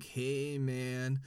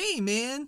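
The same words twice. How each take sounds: First: It is said slowly, like a stoner. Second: It is said quickly, like a fast stoner.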